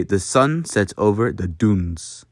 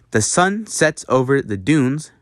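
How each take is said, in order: First: Rounded-lip U in "dunes"; Dutch U sound. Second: Said in the usual way. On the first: Shown as a demonstration. Teacher showing Dutch U, slowly, rounded "dunes". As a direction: round the lips hard on the vowel of "dunes". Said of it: "You'd say". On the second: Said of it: "a good example would be".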